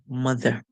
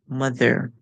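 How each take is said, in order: First: The ending is a short schwa sound. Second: The ending is drawn out with a rolled r. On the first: The speaker calls it right. "it will make a schwa sound" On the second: The speaker calls it wrong. "you will not hear the er at the end being sung out, like roll itself like that"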